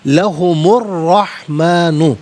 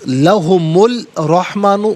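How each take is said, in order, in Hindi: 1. L, एक double R की आवाज़ में मिल जाता है। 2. 'rahmanu' से पहले L की आवाज़ सुनाई देती है। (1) "ये सही है" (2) "गलत"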